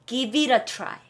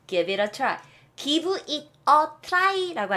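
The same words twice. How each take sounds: First: "Give it a try" run together as gi-vi-ra try; connected "Give it a try", t softened to a flap; linked pronunciation. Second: "Give it a try" with each word separate, raised pitch; unlinked, spelt-out "Give it a try"; word-by-word pronunciation. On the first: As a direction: link "Give it a" into one smooth word before "try". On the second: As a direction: sound out "Give it a try" in Korean-style syllables. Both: Shown as a demonstration. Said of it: "라고 하잖아요".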